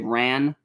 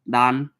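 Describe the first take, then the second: First: The word starts with an American English R. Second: The word starts with a sound between L and R. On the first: The speaker calls it wrong. "in America we would say ran. It's not ran" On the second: The speaker calls it right. "The word in Japan would be dan, dan. It's almost like an L and an R"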